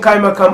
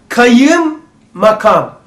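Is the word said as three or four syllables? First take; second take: three; four. First: The word is said with three syllables. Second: The word is said with four syllables. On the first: This is the everyday, quickly spoken form. "hızlı söylediğimiz için kaymakam" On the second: This is the original full form. "aslı böyle değil. Kayım makam"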